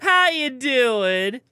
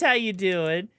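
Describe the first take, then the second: First: It is said in a raspy gremlin voice. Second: It is said in his normal voice.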